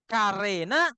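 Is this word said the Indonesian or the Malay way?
Indonesian. The first vowel is a full open 'a'. "kita ikuti standar Indonesia"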